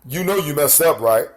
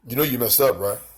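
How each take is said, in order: First: It is said in a normal speaking voice. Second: It is said in a put-on tough voice.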